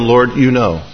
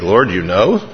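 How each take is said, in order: First: The phrase sounds calm and trusting. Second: The phrase sounds rueful and dismayed. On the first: God already understands my sincere effort. "it's a consolation" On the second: God saw the wrong I did. "same phrase, different inflection"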